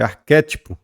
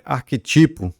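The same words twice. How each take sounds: First: Arquétipo stressed on the second syllable, ar-QUÉ-ti-po; arquétipo the right way, ar-QUÉ-ti-po; correct stress. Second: Arquetipo stressed on the third syllable, ar-que-TI-po; wrong stress. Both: Shown as a demonstration. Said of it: "Não é arquetipo, é arquétipo".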